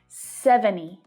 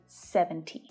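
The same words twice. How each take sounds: First: The T sound in the middle is dropped. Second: The T sound in the middle is pronounced. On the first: "you might hear native speakers drop the T here as well. It's really common to hear seventy" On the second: "rather than seventy"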